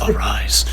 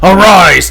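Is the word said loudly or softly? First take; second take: softly; loudly. First: The word is said quietly. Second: The word is said loudly. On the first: "too soft" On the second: "too loud"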